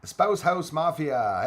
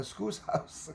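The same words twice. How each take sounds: First: "Spouse House Mafia" read with a P, "spouse" like a husband or wife, slow; the mistaken take, "Spouse House Mafia" with the P sound; misread name. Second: "Scouse House" with a hard SK, "Scouse" rhyming with house; the corrected take, "Scouse House" starting with SK; corrected name. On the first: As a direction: say "Spouse" rhyming with house, spelled with a P. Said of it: "Okay, Scout, uh, Scouse House". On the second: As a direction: fix it: "Scouse" with SK, not "spouse". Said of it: "Sorry, man". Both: Real, not acted.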